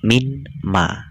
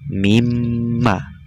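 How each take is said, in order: First: A clear n sound is heard before the m. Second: The n merges into a doubled, nasal m. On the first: The speaker calls it wrong. "Jika ini tidak ada tasjid, otomatis kalian akan membaca minma" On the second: The speaker calls it right. "maka lafaz minma ini dibaca mimma"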